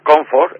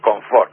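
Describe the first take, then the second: First: The stress is on the first syllable. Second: The stress is on the last syllable. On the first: "la palabra que sería comfort, en inglés" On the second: "Ese acento agudo"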